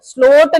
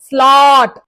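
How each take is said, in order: First: The vowel sounds like 'oh'. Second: The vowel sounds like 'aw'. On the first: The speaker calls it wrong. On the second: The speaker calls it right.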